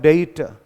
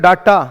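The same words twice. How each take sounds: First: डेटा with ei, "day-ta"; standard pronunciation. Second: डाटा with open a, "daa-ta"; Indian pronunciation. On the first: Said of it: "standard English में क्या होता है". (मानक उच्चारण डेटा) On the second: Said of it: "कुछ लोग इसको क्या पढ़ते हैं". (भारतीय उच्चारण डाटा) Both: Shown as a demonstration.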